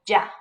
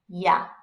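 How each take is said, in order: First: The consonant is a firmer, j-like sound. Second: The consonant is a soft y sound. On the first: "I'm like middle of the ground, so I go" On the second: "If you like the softer sound, then it's"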